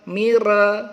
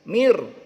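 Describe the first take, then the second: First: An extra vowel is added after the r. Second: The syllable ends clearly on the r. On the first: The speaker calls it wrong. "tidak boleh mare, mire, mure" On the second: The speaker calls it right. "jahar, terang, jelas"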